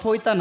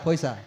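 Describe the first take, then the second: First: The middle consonant is a t sound. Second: The middle consonant is an s sound. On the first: The speaker calls it wrong. "পয়তা না" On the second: The speaker calls it right. "এটা পয়সা"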